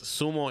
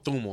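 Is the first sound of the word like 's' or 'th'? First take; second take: s; th. First: The word begins with an 's' sound. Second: The word begins with a 'th' sound.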